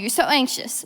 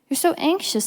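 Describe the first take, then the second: First: It is said in a condescending, scolding tone. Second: It is said in a gentle, caring tone.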